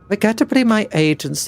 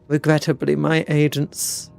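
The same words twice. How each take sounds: First: It is read in a plain, ordinary voice. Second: It is read in a flat, disinterested voice.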